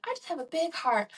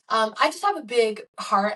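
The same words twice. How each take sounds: First: A light, higher, sugary church-lady take on "I just have a big heart"; mock church person. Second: Said in the usual way. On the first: Vlogger to her viewers, mocking church people, higher sweet mock piety. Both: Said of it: "to sound like one of those church people".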